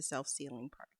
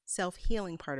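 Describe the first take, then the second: First: Says "self-sealing" with an S, by mistake; slip of the tongue. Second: Corrects to "self-healing" with a clear H; self-correction. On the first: Demonstrating cutting on the mat, she misspeaks "self-sealing". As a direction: trip into "self-sealing" before catching it. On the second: Demonstrating cutting on the mat, she corrects to "self-healing". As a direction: fix the slip: "self-healing". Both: Real, not acted.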